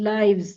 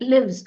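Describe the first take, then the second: First: The vowel is long, as in 'hive'. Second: The vowel is short, as in 'give'. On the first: It is the plural noun form. "Lives, noun" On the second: It is the verb form. "Lives, verb"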